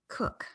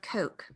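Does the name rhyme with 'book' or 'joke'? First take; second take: book; joke. First: The vowel sounds like the one in 'book'. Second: The vowel sounds like the one in 'joke'. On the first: The speaker calls it right. "but it is Cook" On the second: The speaker calls it wrong. "I'm mispronouncing that"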